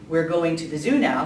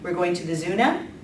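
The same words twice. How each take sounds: First: The pitch falls at the end like a statement. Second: The pitch rises at the end like a question. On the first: It states a plan as fact. "instead of saying" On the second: It asks whether the plan is so. "they would upspeak just like we do"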